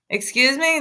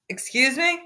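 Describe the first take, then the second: First: Indignant excuse me. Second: Sharp rising indignant question; quiet, affronted rise; indignant excuse me. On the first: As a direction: demand he repeat it. Repeated indignant reaction. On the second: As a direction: act offended at the insult. Streamer reacts to the clip in disbelief. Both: Real, not acted.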